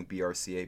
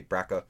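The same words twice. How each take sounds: First: "B R C A" said as four separate letters; spelled out. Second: "brca" run together as BRACK-uh; acronym as word. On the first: Host clarifying the gene name, B R C A spelled out. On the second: Host showing the spoken gene name, BRCA said "BRACK-uh". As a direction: pronounce "brca" in two syllables, BRACK-uh. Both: Shown as a demonstration. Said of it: "This is how we usually pronounce it".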